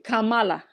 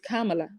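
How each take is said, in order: First: The name is said with an African pronunciation. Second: The name is said with a non-African pronunciation. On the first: "I'm pronouncing it, I think, the African way" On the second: "So maybe it's"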